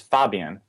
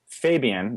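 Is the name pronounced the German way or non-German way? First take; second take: German; non-German. First: The name is said with a German vowel. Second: The name is said with a non-German vowel. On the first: The speaker calls it right. "everybody in Germany says Fabian" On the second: The speaker calls it wrong. "That's how I would say it"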